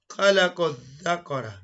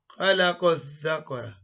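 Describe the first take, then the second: Both takes have the same delivery.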